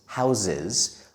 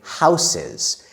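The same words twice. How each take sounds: First: The first S is voiced like a Z. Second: The first S is unvoiced like an S. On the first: The speaker calls it right. "like the letter Z" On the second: The speaker calls it wrong. "we don't say houses. It's not wrong to say that"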